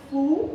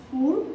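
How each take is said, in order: First: Said in the usual way. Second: "full" with a clear Indian-accent final l; tongue tip up for the l of "full". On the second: Shown as a demonstration. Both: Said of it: "pronunciation of L".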